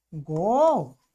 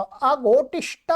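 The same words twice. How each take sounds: First: अघोटिष्ठ drawn out in separate long syllables; slow model form. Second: Said in the usual way. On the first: Shown as a demonstration. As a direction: stretch अघोटिष्ठ slowly for the class. Slowly models new form.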